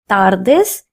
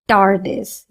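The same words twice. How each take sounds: First: The t and d sound Spanish-style. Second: The t and d sound English-style. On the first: The speaker calls it right. "That's why I'm saying buenas tardes" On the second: The speaker calls it wrong. "and not tardes"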